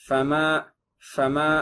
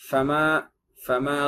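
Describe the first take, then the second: No difference in how they are said.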